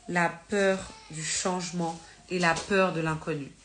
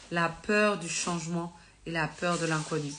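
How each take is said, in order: Both takes have the same delivery.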